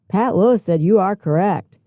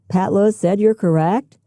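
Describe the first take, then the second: First: It is said forcefully, as an exclamation. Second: It is said as a question, rising at the end. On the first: The speaker is emphatic or surprised about it. "With an exclamation point" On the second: The speaker doubts that Pat Lewis said this. "With a question mark"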